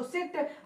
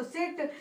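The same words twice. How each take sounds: First: "सिट" with a short, quickly closed i; short sound. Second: "सिट" with its vowel lengthened to ee; long sound. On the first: Teacher recapping the short sound, "सिट" said short. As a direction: keep "सिट" brief. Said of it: "जब मैंने short बोला". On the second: Teacher recapping the long sound, "सिट" drawn out. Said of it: "जब लंबा खींचा गया". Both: Shown as a demonstration.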